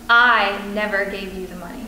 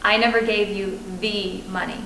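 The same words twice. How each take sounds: First: The stress is on "I". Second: The stress is on "money".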